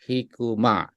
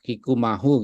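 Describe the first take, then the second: First: The name ends with a plain 'ma' sound. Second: The name ends with an added 'hu' sound. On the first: The speaker calls it right. "lebih dekat ke Indonesia pakai ma aja" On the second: The speaker calls it wrong. "kurang serk ya"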